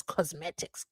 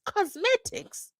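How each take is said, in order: First: Said in the usual way. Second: COSMETICS drawn out very high, rising into a question; incredulous echo. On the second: Pretend. Host balks at the interpreter's word choice, incredulous. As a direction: squeal "Cosmetics" slowly as a disbelieving question.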